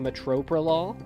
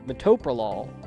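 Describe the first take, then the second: First: The word is said with an added R sound. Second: The word is said without an added R sound. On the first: The speaker calls it wrong. "for the past fifteen years I've been calling" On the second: The speaker calls it right. "he was very clearly saying"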